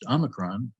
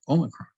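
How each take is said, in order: First: The first O is a short vowel. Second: The first O is a long vowel. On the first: The speaker calls it right. "Omicron should be pronounced Omicron" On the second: The speaker calls it wrong. "not Omicron"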